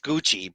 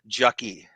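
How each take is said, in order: First: The word begins with a hard G sound. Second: The word begins with a J sound. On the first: The speaker calls it right. "it's Gucci" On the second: The speaker calls it wrong. "I pronounced it Jucky"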